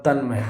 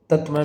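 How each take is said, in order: First: तन्मय with "n" before "m"; correct form. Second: तत्मय with "t" before "m"; wrong form. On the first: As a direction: say तन्मय as "tan-may". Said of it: "बिल्कुल सही होगा". (तन्मय में "न्" बोलें) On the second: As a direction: say तत्मय as "tat-may". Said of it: "बिल्कुल गलत होगा". (तत्मय में "त्" बोलें) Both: Shown as a demonstration.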